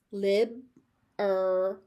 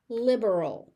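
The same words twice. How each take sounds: First: "Lib-er-al" slowly as lib, er, ul; three separate beats on "Lib-er-al"; syllable by syllable. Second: Said in the usual way. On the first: Shown as a demonstration. Teacher sounding out "Lib-er-al" for learners, slowly by syllable.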